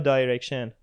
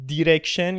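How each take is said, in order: First: The first syllable sounds like 'die'. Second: The first syllable sounds like 'dee'.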